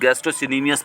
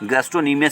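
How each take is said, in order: First: An extra 'si' syllable is said after 'gastro'. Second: No extra syllable is said after 'gastro'. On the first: The speaker calls it wrong. "बहुत लोग गैस्ट्रोसिनीमियस पढ़ते हैं, गलत है।" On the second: The speaker calls it right. "यहाँ पे सी जो होगा साइलेंट वर्ड होगा"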